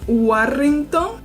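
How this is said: It is said with Spanish sounds. "people would just say like how we will read it"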